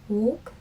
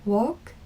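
No difference in how they are said.

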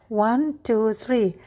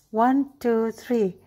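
Both takes have the same delivery.

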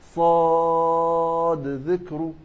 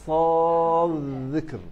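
First: The d sound is pronounced clearly before dh. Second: The d sound merges into the following dh. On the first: "طب بالإظهار" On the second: "هكذا بالإضغام"

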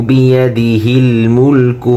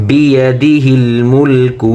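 Both takes have the same delivery.

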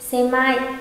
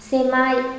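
Both takes have the same delivery.

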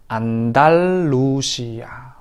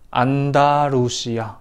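First: The middle consonant is a clear doubled L. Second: The middle consonant sounds like a light R. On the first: The speaker calls it right. "ahora Andalucía; Ahí sí que sonaría Antal, tal, Lucia" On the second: The speaker calls it wrong. "Antes era Andalucía; parece que suena como la R"

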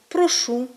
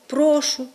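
First: The stress is on the last syllable. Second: The stress is on the first syllable. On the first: This is the literary standard pronunciation. The speaker calls it right. "маємо наголошувати такі дієслова на останньому складі" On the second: This is a dialect pronunciation. The speaker calls it wrong. "Другою причиною є вплив діалектного мовлення"

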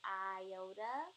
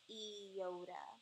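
First: The first vowel sounds like 'eye'. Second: The first vowel sounds like 'ee'. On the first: The speaker calls it wrong. "many people say iota" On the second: The speaker calls it right. "it's actually pronounced iota. ... pronounced with the sound E"

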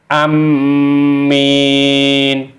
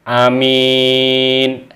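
First: The m sound is doubled and held. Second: The m sound is single and short. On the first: "ada syiddah atau tasdid" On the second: "tidak mensyidahkan atau mentasdidkan mimnya"

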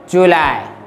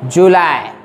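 No difference in how they are said.

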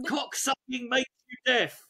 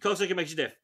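First: It is said low, slow and stern. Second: It is mumbled quickly.

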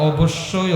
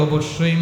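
No difference in how they are said.

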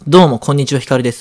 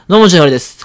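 First: The greeting is said clearly with every syllable. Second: The greeting is said fast with syllables blurred. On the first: "僕の中ではこんにちはって言ってるつもり" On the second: "ちょっと早く言ってるだけなんで … こんな感じです"

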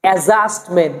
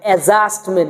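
The two takes are said the same way.

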